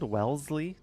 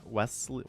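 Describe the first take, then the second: First: The middle consonant is a z sound. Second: The middle consonant is an s sound. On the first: The speaker calls it right. "I guess it's the Z sound" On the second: The speaker calls it wrong. "You don't pronounce the S"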